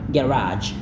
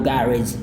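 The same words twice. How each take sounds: First: It is said in an American accent. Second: It is said in a British accent. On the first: "Kalau mau Amerika adalah garage" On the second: "Inggris itu adalah garage"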